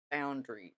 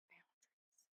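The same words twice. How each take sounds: First: Said in the usual way. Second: Boundaries whispered, breathy and voiceless. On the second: Shown as a demonstration. Repeats the word, then whispers it.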